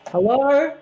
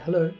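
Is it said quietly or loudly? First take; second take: loudly; quietly. First: It is said at a louder volume. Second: It is said at a quieter volume.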